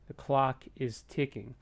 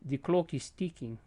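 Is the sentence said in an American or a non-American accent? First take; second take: American; non-American. First: It is said with an American accent. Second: It is said without an American accent. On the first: "with the application of the American accent" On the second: "So it went from"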